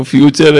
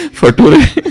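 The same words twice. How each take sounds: First: Said in the usual way. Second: फटुरे read as it is spelt, fa-too-ray, loud and high; loud wrong spelling pronunciation, फटुरे; mispronounced "future". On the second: Shown as a demonstration. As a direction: blurt फटुरे for "future", sounding out every letter. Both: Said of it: "नटुरे और फटुरे नहीं है".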